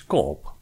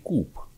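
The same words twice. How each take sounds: First: Coop split into two vowels, O then O. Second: Coop said with a long U sound; Coop as koop. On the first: Explaining the store name, Coop said in two vowels. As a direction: say Coop as two separate O sounds. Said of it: "cu acest diaresis deasupra". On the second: Explaining the store name, Coop with a long U. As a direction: stretch the double O in Coop into a long U. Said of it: "Un U prelungit". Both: Shown as a demonstration.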